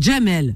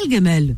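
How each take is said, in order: First: The name starts with a soft J sound. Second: The name starts with a hard G sound. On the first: This is the Algerian way of saying the name. "Nous, on dit Jamel. Nous, les Algériens, c'est Dja" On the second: This is the Egyptian way of saying the name. "ils disent Gam"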